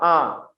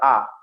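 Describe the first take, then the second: First: The vowel is half-open and comes through the nose. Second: The vowel is said with the mouth fully open. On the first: The speaker calls it wrong. "jangan A. ... kalau nggak dibuka penuh, suaranya keluar dari hidung" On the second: The speaker calls it right. "A itu mulutnya dibuka ya"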